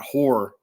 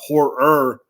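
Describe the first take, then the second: First: The word ends without a clear 'er' syllable. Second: The word ends with a clear added 'er' syllable. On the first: The speaker calls it wrong. "not horror" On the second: The speaker calls it right. "I have to add that er, er at the end"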